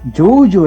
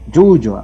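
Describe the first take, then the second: First: The word ends with an 'u' vowel. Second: The word ends with an 'o' vowel. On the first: The speaker calls it right. "yuyu es lo correcto" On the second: The speaker calls it wrong. "Yuyo decimos, ¿no?"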